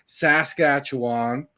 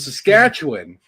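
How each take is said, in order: First: The last syllable sounds like wand. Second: The last syllable sounds like win. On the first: The speaker calls it wrong. "it's not a wand" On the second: The speaker calls it right. "how I've been pronouncing it my entire life"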